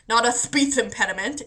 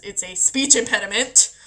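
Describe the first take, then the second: First: "speech" said as "θpiθ", lisping both S sounds; mock lisp. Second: Said in the usual way. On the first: Shown as a demonstration. Mocking friends who laugh at her lisp, lisped. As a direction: lisp "speech impediment" on purpose.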